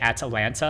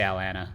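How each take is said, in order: First: Every T sound is clearly pronounced. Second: The T sounds are dropped or swallowed. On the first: "you pronounce every single T" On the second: "in my normal speaking tone, I just say"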